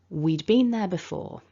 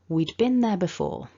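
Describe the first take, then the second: First: The word been has a full, long vowel. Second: The word been has a short, weak vowel.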